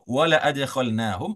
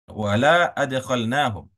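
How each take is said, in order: First: The vowel in 'la' is kept short. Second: The vowel in 'la' is drawn out long. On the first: They will surely be admitted. The speaker calls it right. "kalau dibaca pendek" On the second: They will not be admitted. The speaker calls it wrong. "la-nya dipanjangkan"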